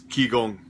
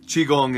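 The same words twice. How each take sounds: First: It is said with the Korean pronunciation. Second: It is said with the Chinese pronunciation. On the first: "Korean pronunciation" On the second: "in Chinese"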